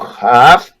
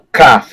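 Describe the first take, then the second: First: The first consonant is a dragged, rasping fricative. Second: The first consonant is a dry, abrupt stop. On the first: The letter has no dot. "se não tiver ponto, é o Raf" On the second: The letter has a dot. "se tiver ponto, é o Kaf, é o seco"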